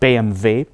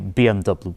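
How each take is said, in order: First: The letters are spoken with German letter names. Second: The letters are spoken with English letter names. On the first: "In Germany they pronounce it as" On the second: "in English we say"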